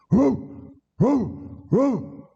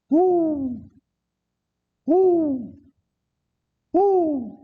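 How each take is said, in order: First: Short high dog yelps; imitated dogs baying. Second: Long, high sustained hoots; imitated hoot owl. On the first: Dogs chasing escaped convicts, imitated short high barks. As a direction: yip like tracking dogs in pursuit. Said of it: "they hear the dogs". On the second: Treed escapee fooling the sheriff, high fake owl hoots. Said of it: "Ain't nothing but an old hoot owl".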